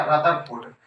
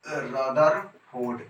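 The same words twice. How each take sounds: First: Said in the usual way. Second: Rutherford stretched out very slowly; drawn out slowly. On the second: Shown as a demonstration. Teacher drilling the name Rutherford, very slow. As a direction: draw out Rutherford for the class to repeat. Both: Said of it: "क्या बोलने का है".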